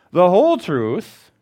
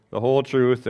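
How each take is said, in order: First: "whole" drawn out slowly, louder and higher; stress on whole. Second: Said in the usual way. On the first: Shown as a demonstration. Preacher urging the congregation to tell all, stressing "whole". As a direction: lean hard on "whole" in "the whole truth". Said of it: "tell people the truth about Jesus".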